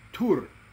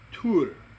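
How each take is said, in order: First: The vowel is an 'oo' sound. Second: The same.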